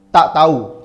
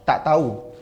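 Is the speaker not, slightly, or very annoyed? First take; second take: very; not. First: It is said with strong annoyance. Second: It is said plainly, without annoyance.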